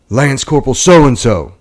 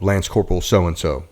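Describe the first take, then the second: First: The name is called in a stern voice. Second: The name is called in a plain voice. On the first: No one answered the first call. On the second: The name is read for the first time.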